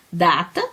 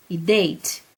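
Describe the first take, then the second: First: Said in the usual way. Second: "date" said the English way, like "deit"; "date" em inglês, soando "deit"; English pronunciation of date. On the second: Shown as a demonstration. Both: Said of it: "Somente na pronúncia".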